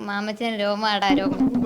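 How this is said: The line is delivered in a bold, heroic way.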